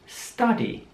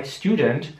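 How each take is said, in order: First: "Study" with the U opened to A, "staddy". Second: "Student" with an OO vowel, "styoo-dent". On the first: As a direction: say the U in "Study" like German A. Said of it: "das U jetzt wieder mal wie ein A". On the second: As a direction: keep the U of "Student" a long U. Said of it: "Also nicht wie bei Student". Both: Shown as a demonstration.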